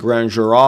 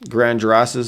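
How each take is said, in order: First: It is said with French-style pronunciation, final S silent. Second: It is said with English-style pronunciation, final S sounded. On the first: The speaker calls it right. "it's actually" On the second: The speaker calls it wrong. "probably an English way to say that"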